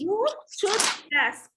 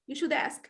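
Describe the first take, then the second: First: The words should and ask are separated. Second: The d of should links into ask. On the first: The speaker calls it wrong. "it's supposed not to say you should ask" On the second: The speaker calls it right. "It's supposed to say you should ask... here we have linking"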